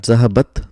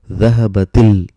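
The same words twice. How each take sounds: First: Zahabat cut off on a vowelless final t; stopped final consonant. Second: Dhahabatil with an i vowel after the t; louder dhahabatil, the final t carried into -til; sukoon turned kasra. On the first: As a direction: end zahabat on a bare t, no vowel after it. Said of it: "our pronunciation stops here". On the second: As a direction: open the t of dhahabatil into a short i, linking to the l. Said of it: "sukoon turns into kasra". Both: Shown as a demonstration.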